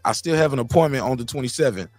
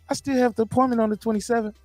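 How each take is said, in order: First: It is read plainly, without acting. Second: It is read dramatically, acted out.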